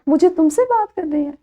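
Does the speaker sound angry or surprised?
surprised. It is said in a surprised tone. "यही जुमला मैंने आप लोगों के लिए रखा हैरत से"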